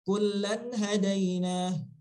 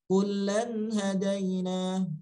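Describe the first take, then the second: First: The lam is short and the nun clear. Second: The lam sound is held long. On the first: The speaker calls it right. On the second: The speaker calls it wrong.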